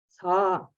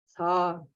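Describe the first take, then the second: First: Low tone with a slight puff of breath. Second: The same.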